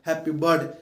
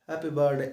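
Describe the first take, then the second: First: It is said with full energy. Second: It is said flatly, without energy.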